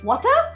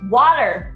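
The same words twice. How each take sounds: First: It is said with a Malaysian accent. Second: It is said with an American accent.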